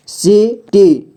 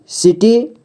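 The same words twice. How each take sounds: First: city slowly as see, pause, tee; syllable by syllable. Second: Said in the usual way. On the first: Shown as a demonstration. Teacher showing beginners how to read city, syllable by syllable. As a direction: break city into two long syllables. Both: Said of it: "जोड़ जोड़ करके ही पढ़ना होगा".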